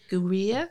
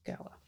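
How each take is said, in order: First: The name is said as one syllable, 'gweer'. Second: The name is said as two syllables, 'gower'. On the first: The speaker calls it wrong. "I can't pronounce it" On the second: The speaker calls it right. "but you pronounce it Gower"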